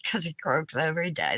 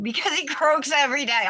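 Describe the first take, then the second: First: Softer, lower murmur to herself; quiet repeat. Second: Higher, bright riddle answer; lively punchline. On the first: Repeating the riddle to herself to remember it, softer and lower. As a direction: rehearse the joke under the breath. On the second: Answering the riddle aloud for live viewers, higher lively punchline. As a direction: land the punchline with a lift. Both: Real, not acted.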